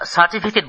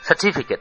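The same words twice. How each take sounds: First: All syllables are level, with no stress. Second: The 'ti' syllable is clearly stressed. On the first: This is the Bengali way of saying it. The speaker calls it wrong. "একেবারে সোজা উচ্চারণ, কোথাও উঁচু কোথাও নিচু নেই" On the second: This is the English way of saying it. The speaker calls it right. "চা বা টি এর ওপর অ্যাকসেন্ট পড়ে"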